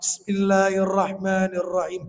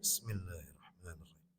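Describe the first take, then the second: First: The phrase is recited loudly and clearly. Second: The phrase is recited quietly, almost under the breath. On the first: The prayer leader recites the opening formula audibly. "Boleh imam mengeraskan basmalah" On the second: The prayer leader recites the opening formula silently. "Boleh dibaca sir"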